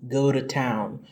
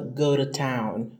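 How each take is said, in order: No difference in how they are said.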